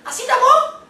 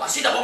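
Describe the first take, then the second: First: The voice is pitched very high. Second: The voice is pitched very low. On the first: "tô falando super alto. É agudo" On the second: "Assim tô falando bem baixo"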